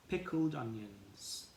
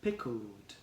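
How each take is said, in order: First: Slow, clear word. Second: Said in the usual way. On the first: Shown as a demonstration. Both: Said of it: "one, two, three".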